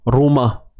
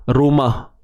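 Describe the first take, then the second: No difference in how they are said.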